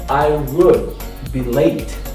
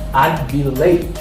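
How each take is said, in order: First: It is said as two full words, I would. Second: It is said as one contracted syllable, I'd. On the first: "if I don't want to say I'd, I can say I would" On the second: "Now this is the contractions for I would. I say I'd"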